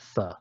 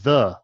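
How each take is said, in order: First: The th sound is voiceless, without buzzing. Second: The th sound is voiced, with buzzing. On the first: "not the voiceless one" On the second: "It's the voiced version"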